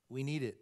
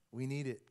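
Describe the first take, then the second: No difference in how they are said.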